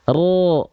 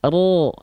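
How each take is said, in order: The two takes are said the same way.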